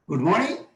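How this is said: The pitch rises up to a high level. "High rise"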